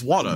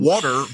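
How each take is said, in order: First: It is said New York style, without R. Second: It is said with the R pronounced.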